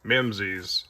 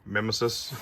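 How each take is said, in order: First: Mimsy's said as MIM-zeez, two syllables, for fun; joking mispronunciation. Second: Mimesis said properly as MIM-uh-sis, three syllables; correct pronunciation. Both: Shown as a demonstration. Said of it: "I like saying Mimsy's 'cause it's funny".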